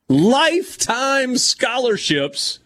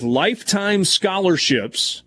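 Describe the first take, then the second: First: "lifetime scholarships" stretched out high and slow; amazed emphasis. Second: Said in the usual way. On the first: Real, not acted. Host repeating a proposal item to co-hosts, "lifetime scholarships" stretched in amazement. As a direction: draw out both words of "lifetime scholarships", pitched way up.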